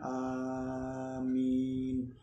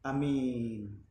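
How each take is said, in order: First: The first vowel is drawn out long. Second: The first vowel is short and clipped. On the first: "hamzahnya dipanjangkan" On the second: "hamzahnya dibaca pendek"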